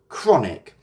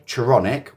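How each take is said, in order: First: The first sounds run together with no extra vowel. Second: An extra vowel is heard after the first sound. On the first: The speaker calls it right. "we say chronic" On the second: The speaker calls it wrong. "We don't say chironic"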